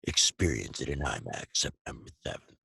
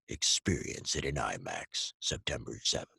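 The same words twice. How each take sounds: First: It is said fast. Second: It is said at a normal trailer pace.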